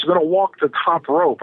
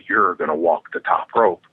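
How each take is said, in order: First: Said in the usual way. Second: Incredulous echo, dropped very low; deadpan disbelief. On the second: Retold or imitated. Wrestler questions opponent's plan to walk the rope, deadpan disbelief. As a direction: repeat the plan back in a low, doubting voice.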